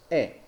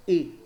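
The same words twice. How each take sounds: First: E opened wide, the version to avoid; drawn-out open "E". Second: E kept closed, as in Spanish; a tight closed "E". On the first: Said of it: "jamás E". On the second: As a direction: say E with a close, narrow vowel. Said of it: "siempre será cerrada". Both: Shown as a demonstration.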